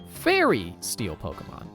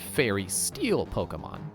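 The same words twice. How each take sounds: First: The word Fairy carries strong emphasis. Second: The word Fairy carries no special emphasis. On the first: The speaker calls it right. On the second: The speaker calls it wrong.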